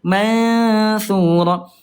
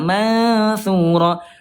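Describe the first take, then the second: The two takes are said the same way.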